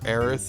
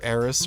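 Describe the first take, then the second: First: The name ends with a th sound. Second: The name ends with an s sound. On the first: This is the original form of the name. "accepting the original Japanese pronunciation" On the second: This is the older, commonly used form of the name. "the old Eris pronunciation"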